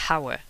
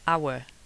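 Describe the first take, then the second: First: The word starts with an audible h sound. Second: The word starts with a vowel, no h sound. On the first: The speaker calls it wrong. "you don't say hour" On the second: The speaker calls it right. "when you say our"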